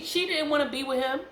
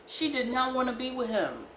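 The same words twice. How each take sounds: First: High, climbing insistence, rising at the end; insistent. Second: "did not" spelled out in full, NOT leaned on, pitch high then falling; stress on NOT. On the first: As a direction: press the point with pitch climbing. First take, then restated for emphasis. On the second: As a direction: land firmly on "not" and fall away to the end. Restates with uncontracted NOT. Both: Real, not acted.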